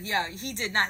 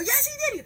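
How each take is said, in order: First: Said in the usual way. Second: Very high, squealed contradiction; insistent retort. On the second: Retold or imitated. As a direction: argue back at a very high pitch. Acted yes-no quarrel.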